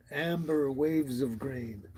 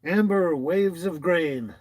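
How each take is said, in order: First: Said in the usual way. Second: Loud, slow announcement of a name; announcing. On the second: Shown as a demonstration. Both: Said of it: "really cool handle or title".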